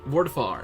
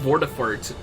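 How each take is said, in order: First: The name ends without a final T sound. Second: The name ends with a final T sound.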